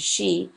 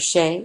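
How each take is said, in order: First: The vowel is an 'ee' sound. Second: The vowel is a long 'ay' sound. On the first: This is the modern pronunciation. "as opposed to she" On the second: This is the older French-influenced pronunciation. "The long A for chez"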